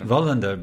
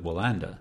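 First: The name is said with Swedish-style pronunciation. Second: The name is said with English-style pronunciation. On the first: The speaker calls it right. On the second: The speaker calls it wrong.

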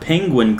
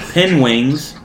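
First: The word is said as penguin. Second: The word is said as penwings. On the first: The speaker calls it right. "didn't say the word penguin correctly" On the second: The speaker calls it wrong. "He said penwings a few times"

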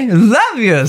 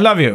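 First: It is said with exaggerated, fake-sounding emotion. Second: It is said plainly, without exaggerated emotion.

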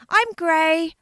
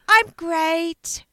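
First: The final T sound is dropped. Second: The final T sound is clearly pronounced. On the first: The speaker calls it wrong. "anybody who actually thought I said, I'm grey" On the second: The speaker calls it right. "I meant to say, I'm great"

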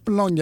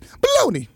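First: It is said plainly, without a New York accent. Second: It is said in a New York accent. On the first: This is the original name of the sausage. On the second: This is how a New Yorker turned the name into baloney.

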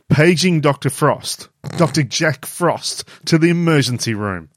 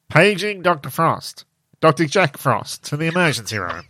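First: It is said in a normal voice. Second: It is said with a pinched, nasal voice.

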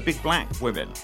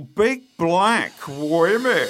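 First: It is said in his normal voice. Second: It is said in a put-on camp voice.

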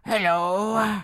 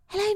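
First: The voice is gruff like an old man. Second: The voice is smooth and not gruff. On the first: "like a very like gruff old man voice" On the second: "Paul King's Paddington, it's all like"

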